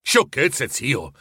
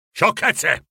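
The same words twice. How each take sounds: First: Lighter echo of "Sciocchezze" in the nephew's own easy voice; playful retort. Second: Put-on a grumpy old miser dismissing the word "Sciocchezze!" in a different timbre; irritated grumble. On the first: Acted. Nephew teasingly echoing his grumpy uncle, playful retort. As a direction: tease it back good-naturedly. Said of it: "replicò il nipote". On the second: Scrooge brushing off his nephew's greeting, irritated grumble. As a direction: scoff it away like a sour old man. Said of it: "bofonchiò lui, seccato".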